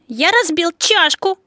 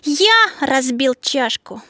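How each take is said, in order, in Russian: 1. Смысловое ударение падает на слово «чашку». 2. Смысловое ударение падает на слово «я». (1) "На слове «чашку»" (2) "На слове «я»"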